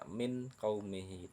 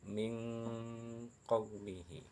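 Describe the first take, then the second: First: The n sound is pronounced clearly and fully. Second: The n sound is hidden with a nasal hum. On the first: The speaker calls it wrong. "tidak menjelaskan bacaan nun sukunnya, tidak min qaumihi" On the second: The speaker calls it right. "Ikhfa artinya samar, mendengung"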